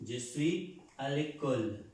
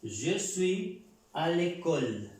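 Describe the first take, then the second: First: Said in the usual way. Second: Je suis à l'école slow and a little louder, l'école run together as "lekol"; slow model pronunciation. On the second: Shown as a demonstration. Teacher introducing the example, slow clear l'école. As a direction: announce the model sentence slowly. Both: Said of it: "Este es un apóstrofe".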